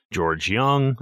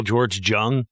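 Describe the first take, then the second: First: Said in the usual way. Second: "Jung" said with a hard English J, not a Y. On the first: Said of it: "so many people George Jung". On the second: Shown as a demonstration. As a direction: say "Jung" with the J of "jungle". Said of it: "'cause it's J U N G".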